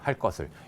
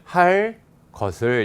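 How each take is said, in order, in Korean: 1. 이어 읽으면 된 kk 소리입니다. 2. 끊어 읽으면 예사 k 소리입니다. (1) "이어서 발음을 하면 할 것을 이렇게 발음하기도 하거든요. 얘가 된 소리가 돼요" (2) "끊어 읽으면 할 것을 이렇게 그냥 예사 소리로 발음해도"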